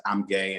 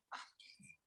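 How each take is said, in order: First: Said in the usual way. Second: Barely voiced whisper, breaking open; whispered confession. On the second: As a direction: let it slip out as a fragile whisper. First time saying it, crying after.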